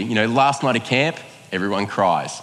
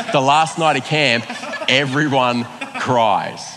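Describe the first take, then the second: First: Said in the usual way. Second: Laughing, slowing right down on everyone cries; laughing emphasis. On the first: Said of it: "but, like, the last night at camp, everyone cries". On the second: Shown as a demonstration. Retelling the camp night to the church, laughing and slow. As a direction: chuckle it, then stretch the words out slowly.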